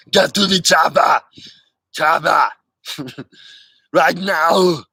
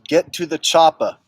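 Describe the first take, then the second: First: Louder, urgent "Get to the chopper" in Arnold's accent; Arnold impression. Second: A first, lighter take on the chopper line in Arnold's accent; Arnold impression. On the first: Corrected take for the viewer, louder Austrian accent shout. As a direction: order them onto the chopper. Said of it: "Or, excuse me". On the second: Viewer requests chopper line, light Austrian accent. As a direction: say it like Arnold, offhand. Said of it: "Vale says". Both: Shown as a demonstration.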